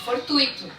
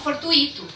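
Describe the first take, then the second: First: The u and i glide together as one syllable. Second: The u and i are split into two syllables. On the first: The speaker calls it right. "é fortuito" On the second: The speaker calls it wrong. "As pessoas falam fortuito, mas não é"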